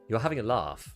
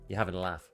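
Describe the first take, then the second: First: It has a long Southern 'ah' vowel. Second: It has a short Northern 'a' vowel.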